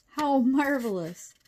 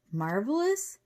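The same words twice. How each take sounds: First: Slow, high, loud marvelling; delighted. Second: MARVELOUS as a rising question; incredulous echo. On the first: Professor delighted at news of giant ants, marvelling. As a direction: savour MARVELOUS with falling wonder. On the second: Cheyenne doubts professor's delight, incredulous rising MARVELOUS. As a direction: echo MARVELOUS in disbelief, pitch climbing. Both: A narrator's reading.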